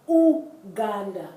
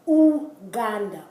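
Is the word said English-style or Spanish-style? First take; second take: Spanish-style; Spanish-style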